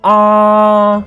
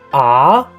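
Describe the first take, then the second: First: The pitch stays high and level. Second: The pitch rises from mid to high. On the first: "the first tone is ah. Remember the pitch is very high" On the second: "The second tone is an up"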